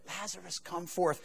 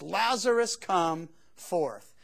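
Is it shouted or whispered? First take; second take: whispered; shouted. First: It is said in a whisper. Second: It is shouted in a loud voice.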